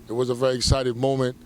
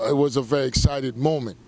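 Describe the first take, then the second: No difference in how they are said.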